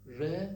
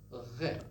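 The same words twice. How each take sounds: First: Said in the usual way. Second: RE with a French uvular R. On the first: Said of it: "instead of saying". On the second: Shown as a demonstration. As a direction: roll RE far back in the throat, French style. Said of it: "The French people say".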